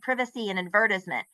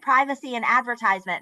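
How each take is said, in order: First: It is said with a British pronunciation. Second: It is said with an American pronunciation.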